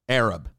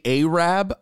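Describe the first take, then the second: First: The first vowel sounds like 'a' in 'cat'. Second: The first vowel sounds like 'ay' in 'day'. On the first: It is the normal, correct way to say it. The speaker calls it right. "How do you say it correctly?" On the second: It is meant to be offensive. The speaker calls it wrong.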